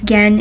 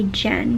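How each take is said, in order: First: It begins with a hard G sound. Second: It begins with a soft J sound. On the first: This is how the name is read in Japanese. "I say Gen because Gen is a name in Japanese" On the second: This is how Americans would read the name. "maybe American people say Jen"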